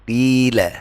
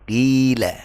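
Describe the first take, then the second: The two takes are said the same way.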